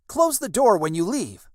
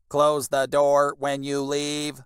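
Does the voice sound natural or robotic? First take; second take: natural; robotic. First: It is read in a natural, calm voice. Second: It is read in a flat, robotic voice.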